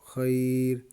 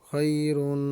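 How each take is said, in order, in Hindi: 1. शब्द 'un' ध्वनि के बिना अचानक खत्म हो जाता है। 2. शब्द के अंत में एक नासिक 'un' ध्वनि जुड़ी है।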